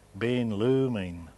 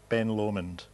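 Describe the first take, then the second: First: The name is said in a Gaelic way. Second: The name is said in an anglicised way.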